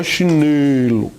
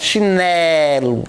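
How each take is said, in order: First: Chinelo mispronounced with a closed "ê"; wrong closed E. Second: Chinelo with a long open "é"; wide-open E held in chinelo. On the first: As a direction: say chinelo low, wrongly, as "chinêlo". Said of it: "não é chinelo". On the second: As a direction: slowly stretch chinelo as "chinélo". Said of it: "com som mais aberto". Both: Shown as a demonstration.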